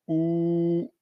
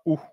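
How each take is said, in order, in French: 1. La voyelle est longue. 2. La voyelle est courte. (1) "avec la prolongation, ça fait OU" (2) "et non pas OU"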